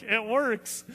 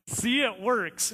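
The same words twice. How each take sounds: First: Said in the usual way. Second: See, it works, said slowly and drawn out; slow pointed remark. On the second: Retold or imitated. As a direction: spell it out slowly to her. Narrator tells mom at the pool.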